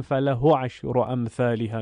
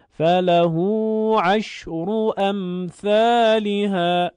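First: «فله» with a short final o, no hold; without lengthening. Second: Slow, higher, louder chant with the u of «فله» held; sung, recitation with lengthening. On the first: Teacher showing how not to read it, short vowel. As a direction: say «فله» as falaho, running straight on into the next word. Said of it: "نمیگیم". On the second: Teacher demonstrating the correct reading, slow lengthened chant. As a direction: chant it, stretching «فله» to falahuu. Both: Shown as a demonstration.

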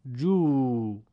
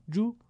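First: جو as a drawn-out "juu"; long vowel. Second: جو as a brief "ju"; short vowel. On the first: Teacher reads the madd drill, جو held long. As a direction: stretch جو over two beats. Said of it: "با واو مدی به صورت کشیده". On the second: Teacher reads the damma drill, جو kept short. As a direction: say جو short, one beat. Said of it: "کوتاه تلفظ بکنید". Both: Shown as a demonstration.

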